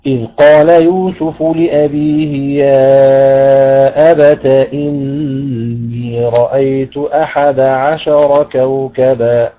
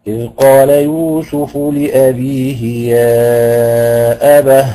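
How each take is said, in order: First: Slow recited يا أبت with the تاء voiced as "abata" in connected reading; slow Quranic recitation carrying أبت through without a stop; Quran recitation, joined. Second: Slow Quranic stop, أبه closing on a breathy ha; recited stop on ha. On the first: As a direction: chant أبت with a clear open تاء, flowing into إني. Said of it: "يعني يقرأ هكذا". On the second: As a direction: chant يا أبه and pause on the final هاء instead of a تاء. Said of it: "أما إذا وقف عليها فسيقف عليها بالهاء". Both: Shown as a demonstration.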